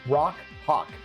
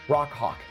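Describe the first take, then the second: First: The two words are said slowly and separately. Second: The two words are said quickly, run together.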